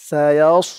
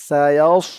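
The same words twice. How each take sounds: No difference in how they are said.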